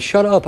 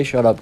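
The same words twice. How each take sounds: First: High-pitched retold plea, mock cracking; cracky laughing voice. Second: Said in the usual way. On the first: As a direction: squeeze it out high as if helpless with laughter. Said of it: "My voice is all cracky".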